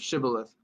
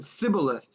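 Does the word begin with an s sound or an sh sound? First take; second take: sh; s. First: The word begins with an sh sound. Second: The word begins with a plain s sound. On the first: The word is pronounced correctly. The speaker calls it right. "instead of Shibboleth" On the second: The speaker cannot pronounce the word correctly. The speaker calls it wrong. "he said Sibboleth instead of Shibboleth"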